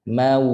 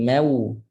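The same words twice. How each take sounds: First: "mau" with an open ma gliding into a held, rounded w; full ma, clear waw. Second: "mau" with the vowel fronted to meu; ma turned me. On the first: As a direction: round fully into the end of "mau". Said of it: "waw muncul betul-betul". ("mau" dengan waw betul-betul) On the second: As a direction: let the a of "mau" slide towards e. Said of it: "tak nak jadi me". ("mau" berbunyi meu) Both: Shown as a demonstration.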